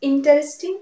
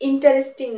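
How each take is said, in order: Both takes have the same delivery.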